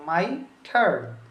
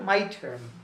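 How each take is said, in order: First: The two words are said separately and carefully. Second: The two words are said fast and run together. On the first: "এটা না বলে" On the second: "খুব দ্রুত বলা হয়েছে, ... একসাথে মিলে গিয়েছে"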